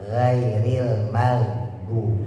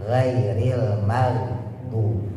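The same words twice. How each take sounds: Both takes have the same delivery.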